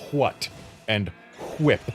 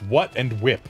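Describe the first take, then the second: First: An H sound comes before each W. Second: Each W is plain, with no H sound. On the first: The speaker calls it wrong. "puts the H before the W" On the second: The speaker calls it right. "But no, it's"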